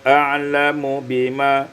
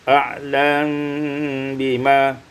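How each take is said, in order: First: A vowel follows the m sound. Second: The m has no vowel and is hidden.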